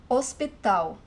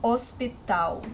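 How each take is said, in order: First: Hospital said as os-pi-TAU, no H sound; silent H. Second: Hospital said slowly as os-pi-TAU with silent H. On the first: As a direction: drop the H in Hospital. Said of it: "the H is the first letter". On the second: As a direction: model Hospital slowly for learners. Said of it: "it is silent". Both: Shown as a demonstration.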